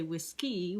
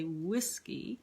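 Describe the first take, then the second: First: Whiskey wrongly stressed at the end, whis-KEY; stress on second syllable. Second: Whiskey stressed at the start, WHIS-key; stress on first syllable. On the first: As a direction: hit the last syllable of whiskey. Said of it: "That's stressed, unstressed. We don't say". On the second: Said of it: "That's stressed, unstressed". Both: Shown as a demonstration.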